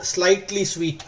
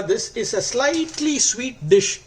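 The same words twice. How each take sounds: First: Said in the usual way. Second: Slightly sweet said higher and slower, each word leaned on; stress on slightly sweet. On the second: Real, not acted. Cook to viewers, insisting the dish is only slightly sweet, stressed. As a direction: lean hard on slightly sweet. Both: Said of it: "I want to stress on the word slightly sweet".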